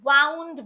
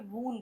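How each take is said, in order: First: The vowel rhymes with 'cow'. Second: The vowel rhymes with 'moon'. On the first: The past form of wind. "तो वहां पर आप इसे वाउंड बोलेंगे" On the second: An injury. "चोट के sense में यूज कर रहे हैं तो आप इसे वून बोलेंगे"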